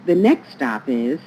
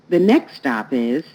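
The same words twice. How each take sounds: The two takes are said the same way.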